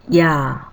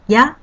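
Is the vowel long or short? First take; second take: long; short. First: The vowel is held twice as long. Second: The vowel is held briefly.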